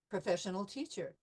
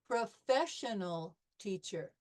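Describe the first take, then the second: First: It is said smoothly at normal speed. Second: It is said slowly, syllable by syllable. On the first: "at conversation speed" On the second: "by syllables"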